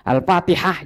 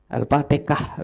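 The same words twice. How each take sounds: First: The word has standard Arabic pronunciation. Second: The ha sound becomes a k-like sound.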